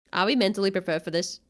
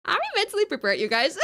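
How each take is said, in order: First: Said in the usual way. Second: Laughing re-ask. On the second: Shown as a demonstration.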